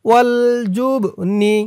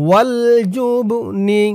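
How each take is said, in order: The two takes are said the same way.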